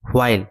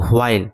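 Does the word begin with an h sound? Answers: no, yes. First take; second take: yes; yes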